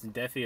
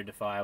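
First: "DEF-ee" for Defi. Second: "deh-FY" for Defy. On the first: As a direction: say Defi with an "ee" ending. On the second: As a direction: say Defy with an "eye" ending. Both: Shown as a demonstration. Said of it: "if it's Defi or Defy".

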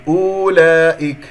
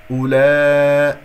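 First: أولئك with the first u stretched to oo; faulty long oo in أولئك; wrong long waw. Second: أولا- with short u and long loud aa; loud drawn-out recited أولا-; correct short u. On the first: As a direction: wrongly lengthen the opening of أولئك, higher and loud. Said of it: "تكتب ولا تلفظ". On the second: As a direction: keep the first vowel of أولا- brief, hold laa. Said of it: "لا تقل أولئك". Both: Shown as a demonstration.

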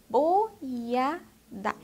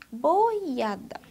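First: "boiada" very slowly as bo, ia, da; syllables separated. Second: Said in the usual way. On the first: Shown as a demonstration. Teacher showing pupils the word, syllables separated. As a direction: break "boiada" into three slow separate beats. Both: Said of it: "Ó, boiada".

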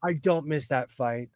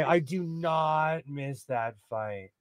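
First: Said in the usual way. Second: "I do not miss that fight" slow and soft, with weight on not; quiet deliberate "I do not miss that fight"; emphatic slow repeat. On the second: Shown as a demonstration. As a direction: drag out "do not" to lean on it.

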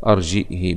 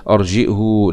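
First: أرجئه with hamza, ending "hi"; kasra, no sila. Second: أرجئه with hamza, ending "hu"; damma on the haa. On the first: Teacher contrasting with earlier readers, أرجئه said with "hi". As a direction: put a kasra on the haa of أرجئه. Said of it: "بخلاف الأولانيين". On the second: Teacher showing the rejected version, أرجئه ending in "hu". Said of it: "لا". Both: Shown as a demonstration.

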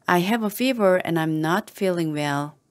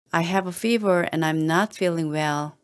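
Both takes have the same delivery.

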